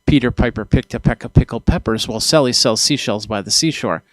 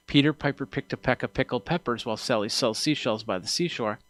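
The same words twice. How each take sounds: First: Louder, with P's popping into the microphone; close-on-mic read with hard plosive pops; straight into the mic. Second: Spoken from the corner of the mouth past the mic; softer off-axis tongue twister; off to the side. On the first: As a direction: turn square to the capsule and punch the P's. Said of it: "turn into the microphone and say". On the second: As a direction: keep the P's soft by talking across the capsule. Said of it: "So if I go". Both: Shown as a demonstration.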